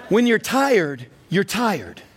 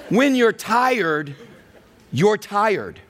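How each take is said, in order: First: It is said at a normal, quicker pace. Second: It is said at a slower, deliberate pace.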